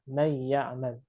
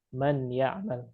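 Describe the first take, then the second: First: The n is only partly merged into the y. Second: The n is kept fully, with no merging. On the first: "idghamnya kurang" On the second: "meninggalkan idgham"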